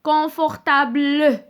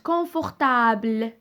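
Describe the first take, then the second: First: The final E is pronounced aloud. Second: The final E is silent. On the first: The speaker calls it wrong. "ما قلتش confortable. C'est faux" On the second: The speaker calls it right. "قلت confortable"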